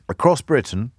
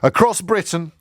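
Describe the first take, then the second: First: It is read in an ordinary conversational voice. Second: It is read in a grand speech-making voice.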